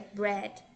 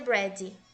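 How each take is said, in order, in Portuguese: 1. A palavra termina em d suave, sem vogal. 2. Um i curto extra vem depois do d final. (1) "é bread" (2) "não pronuncia bread"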